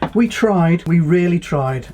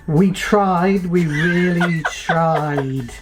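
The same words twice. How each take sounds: First: It is read smoothly at a normal pace. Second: It is read haltingly, with stumbles and slowing. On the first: "I'll read a little bit" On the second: "let me try with this on"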